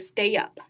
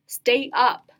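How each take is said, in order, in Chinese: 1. stay 顺畅地滑入 up。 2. 这两个词是分开读的。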